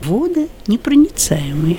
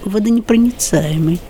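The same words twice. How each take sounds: First: The word is said with two stressed syllables. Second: The word is said with a single stressed syllable.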